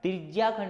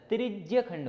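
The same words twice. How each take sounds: First: "त्रिज्या खंड" said with a long aa ending, as the mistake; "त्रिज्या" stretched with full aa, the common error; wrong pronunciation. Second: "त्रिज्य खंड" with a short clipped ending, no aa; "त्रिज्य" cut short before "खंड"; correct pronunciation. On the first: Teacher showing the class the wrong way: "त्रिज्या" with long aa. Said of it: "त्रिज्या खंड नहीं होता". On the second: Teacher giving the class the right form: "त्रिज्य" short. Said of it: "वो होता है त्रिज्य खंड". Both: Shown as a demonstration.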